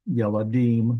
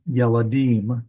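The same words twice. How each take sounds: First: Said in the usual way. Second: Yeladim drawn out slowly, each syllable clear: ye-la-DIM; slow careful yeladim. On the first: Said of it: "Uh, yeladim". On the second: Shown as a demonstration. Teacher modelling the plural for students, slow and careful. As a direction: spell out yeladim slowly for the class, stress on the last syllable. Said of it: "it's a boy child".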